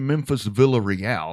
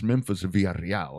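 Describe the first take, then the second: First: The name is pronounced with English sounds. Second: The name is pronounced with Spanish sounds. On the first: The speaker calls it wrong. "not the way you all people say it. You guys say" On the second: The speaker calls it right. "I'm gonna say it right"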